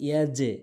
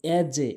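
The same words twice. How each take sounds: No difference in how they are said.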